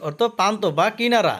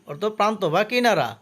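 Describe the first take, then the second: No difference in how they are said.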